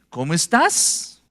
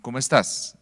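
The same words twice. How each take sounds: First: It is said with question intonation. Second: It is said with statement intonation. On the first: It asks something. "Eso es una pregunta" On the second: It asserts something. "Eso es una afirmación"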